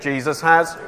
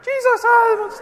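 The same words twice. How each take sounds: First: It is said in a normal voice. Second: It is said in a high voice.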